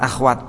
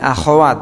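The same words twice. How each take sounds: First: No vowel is heard between kh and w. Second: A short vowel is heard between kh and w. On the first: The speaker calls it wrong. "Jangan disukun" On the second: The speaker calls it right. "jawabnya akhwat"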